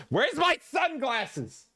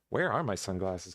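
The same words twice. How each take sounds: First: A drawn-out high sing-song question; sing-song high call. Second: Said in the usual way. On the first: Acted. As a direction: sing it out high and slow, like a little tune. Hunting for sunglasses before dancing.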